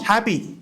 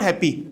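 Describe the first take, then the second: First: The 'a' sound is given extra stress. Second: The word is said quickly without extra stress. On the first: The speaker calls it right. "हम लोग ए पे stress करेंगे" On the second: The speaker calls it wrong. "Not happy"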